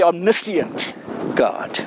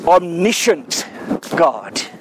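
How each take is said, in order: First: The word is said in a British way. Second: The word is said in a North American way. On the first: "the Queen's English that is, we say" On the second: "There's a North American way"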